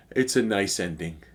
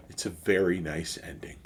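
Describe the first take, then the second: First: Said in the usual way. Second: A hushed echo of the last line; quiet whispered afterthought; whispered repeat. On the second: Real, not acted. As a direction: whisper it to yourself, softer. Soft repeat of his closing line.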